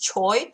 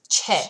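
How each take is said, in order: First: The name ends in an 'oy' glide. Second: The name ends in a plain 'eh' vowel. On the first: This is how English readers say it from the spelling. "a lot of English people pronounce this choi" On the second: This is how Korean people say it. "Korean people pronounce this che"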